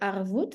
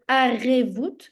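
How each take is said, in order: First: The word has two syllables, har-vout. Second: The word has three syllables, a-re-vout. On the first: The speaker calls it wrong. "et non pas de harvoût" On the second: The speaker calls it right. "il s'agit de arrêt-voûte"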